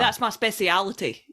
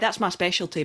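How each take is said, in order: First: The word is said longer, as speciality. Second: The word is said short, as specialty. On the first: The speaker calls it wrong. "Nah, it doesn't sound right" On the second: The speaker calls it right. "Aye, that's my specialty, mate"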